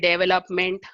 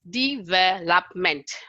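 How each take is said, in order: First: No syllable is given clear stress. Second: The stress is on the second syllable.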